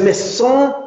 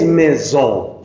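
First: Maison as "meh-sson" with a hissed S; unvoiced S, wrong. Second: Maison as "meh-zon" with a buzzing Z; voiced S, correct. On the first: Teacher showing the wrong S, maison said as meh-sson. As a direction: say maison with a Spanish S in the middle. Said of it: "Y esa S no es". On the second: Teacher correcting the S, maison said as meh-zon. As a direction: draw out the Z sound in maison. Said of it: "es maison". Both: Shown as a demonstration.

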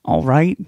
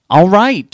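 First: Said in the usual way. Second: Sudden loud, high shout; exasperated yelled agreement. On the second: Acted. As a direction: snap it out at full volume. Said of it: "she yelled".

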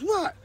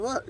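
First: Pro's high squeaky what; high mocking echo. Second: Said in the usual way. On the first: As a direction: toss the word back up high. Pro echoes him, much higher.

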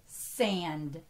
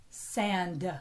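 First: Said in the usual way. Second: "sand" with an extra "uh" after the d; added "uh" ending. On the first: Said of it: "Remember, the word is sand". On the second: Shown as a demonstration. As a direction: say "sand" as two syllables, san-duh. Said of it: "add that uh at the end".

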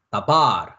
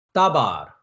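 First: 다바르 with the weight on 바르; stress on last syllable. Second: 따바르 with the weight on 따; stress on first syllable. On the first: Teacher showing final accent, 다바르 stressed on 바르. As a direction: lean hard on the 바르 of 다바르. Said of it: "발에다가 강세를 줘야". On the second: Teacher showing accent on dalet, 따바르 stressed on 따. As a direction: punch the opening 따 of 따바르, let 바르 fall. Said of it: "악센트 표시가 달렛에". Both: Shown as a demonstration.

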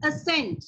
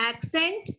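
First: "accent" said like ascent, uh-SENT, no K sound; ascent pronunciation. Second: "Accent" said slowly as AK-sent, with a K; accent pronunciation. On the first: ("accent" ਨੂੰ "ਅ-ਸੈਂਟ" ਬੋਲੋ) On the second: ("Accent" ਨੂੰ ਹੌਲੀ "ਐਕ-ਸੈਂਟ" ਬੋਲੋ) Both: Shown as a demonstration. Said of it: "ਇਹ ਦੋਨਾਂ ਦਾ pronunciation ਬਿਲਕੁਲ different ਹੈ".

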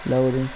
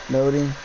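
The two takes are said the same way.

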